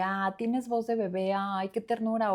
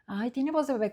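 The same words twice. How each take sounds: First: Slow, fond teasing, cooing; tender, amused. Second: Higher, mocking sing-song. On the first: Retold or imitated. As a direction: say it like something cute. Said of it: "y eso fue como de". (con ternura, despacio y cariñosa) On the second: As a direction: tease him, make fun of the baby voice. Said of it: "como burla". (en tono de burla, más agudo)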